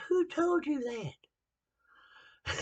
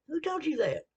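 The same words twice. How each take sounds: First: Drawn-out retort. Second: Higher, louder comeback, "Who told you that?"; indignant retort. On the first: Preacher answering his critics, slow and higher. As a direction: stretch out every word of the comeback. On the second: Preacher answering his critics, indignant and higher. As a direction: fire the question right back at them. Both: Retold or imitated.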